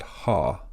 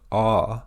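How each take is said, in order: First: The vowel starts with an h sound. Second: The vowel starts without an h sound. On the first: The speaker calls it right. "but ha" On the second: The speaker calls it wrong. "so it's not ah"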